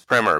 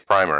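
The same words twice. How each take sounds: First: Primer is pronounced the American way. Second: Primer is pronounced the British way. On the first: "in US it's primer" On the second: "in UK it's primer"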